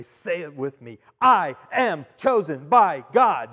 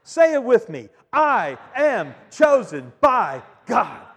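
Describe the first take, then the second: First: Slow, louder proclamation; preacher's call. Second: Slow, loud, high proclamation; rousing call-and-response. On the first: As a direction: lead the congregation in a slow ringing chant. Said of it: "I'd say". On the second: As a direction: drive the congregation to shout it back. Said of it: "Do you want to try it?". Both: Shown as a demonstration.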